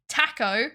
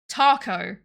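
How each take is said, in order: First: It is said in a British accent. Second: It is said in an American accent. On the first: "Taco is English" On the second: "Taco is American slash Australian"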